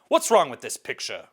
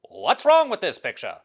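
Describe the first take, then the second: First: It is read in a plain, ordinary voice. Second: It is read in a dramatic put-on voice. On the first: The speaker calls it wrong. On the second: The speaker calls it right.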